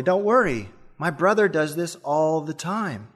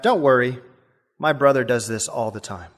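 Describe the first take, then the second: First: Calm, a touch softer reassurance; calmly. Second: Said in the usual way. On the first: Retold or imitated. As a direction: soothe the scared passenger, unbothered. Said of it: "The driver said calmly". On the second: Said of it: "the driver said back".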